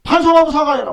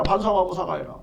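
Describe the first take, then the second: First: Forceful call to repent and apologize; loud demand. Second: Said in the usual way. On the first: Real, not acted. Demanding an apology from the man in court, loud. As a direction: punch out 반성하고 사과해라 as a loud demand. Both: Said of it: "그래서".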